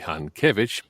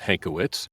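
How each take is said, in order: First: The surname is pronounced in a Polish way. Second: The surname is pronounced in an English way. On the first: "If we were in Poland, the correct pronunciation would be" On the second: "You did, in fact, pronounce my surname correctly"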